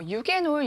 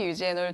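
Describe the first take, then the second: First: The middle consonant is a hard G sound. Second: The middle consonant is a J sound. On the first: "어떤 분은 유게놀이라고 말씀하시고" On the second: "어떤 분은 유제놀이라고 말씀하시고"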